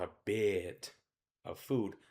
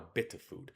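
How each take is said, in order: First: The vowel in bit is held longer. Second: The vowel in bit is cut short. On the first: The speaker calls it wrong. "I don't want a bit of food" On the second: The speaker calls it right. "I want a bit of food"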